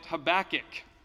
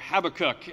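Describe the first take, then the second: First: It is said in the speaker's usual pronunciation. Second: It is said the South African, British way.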